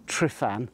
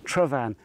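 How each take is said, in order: First: The name is said with an F sound. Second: The name is said with a V sound. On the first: The speaker calls it wrong. "It's not Trifan or Trifan, as everybody seems to pronounce it" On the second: The speaker calls it right. "It's only two syllables, Travan"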